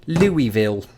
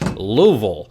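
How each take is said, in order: First: The name is said with full, clear syllables. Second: The name is squeezed into about two syllables. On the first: "of whose pronunciation I had been heartbreakingly assured" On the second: "they somehow articulated in just two and a half syllables"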